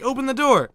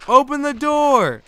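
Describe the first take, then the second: First: High, loud demand at the door; retold urgent shout. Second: High, loud, very drawn-out cry; long desperate yell. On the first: Retelling being locked out as a child, urgent shout. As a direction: yell high, acting out a desperate kid. Retells yelling to get inside. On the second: Retold or imitated. Retelling being locked out as a child, long desperate yell. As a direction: stretch each word into a desperate yell. Retells yelling louder to get in.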